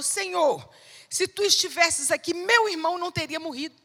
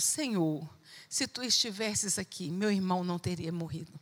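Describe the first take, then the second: First: Higher, louder, quick reproach; urgent, reproachful, speeding up at the end; reproachful complaint. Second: Lower, softer and grieving; broken, sorrowful plea; heartbroken. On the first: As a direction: blurt it out as a reproach to Jesus. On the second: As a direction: speak as if kneeling in tears. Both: Retold or imitated. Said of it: "como foi falada, foi completamente diferente".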